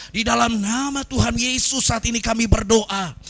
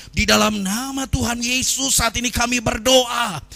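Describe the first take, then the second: The two takes are said the same way.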